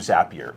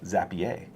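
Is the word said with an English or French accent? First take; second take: English; French. First: It is said with a plain English pronunciation. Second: It is said with a French-sounding pronunciation.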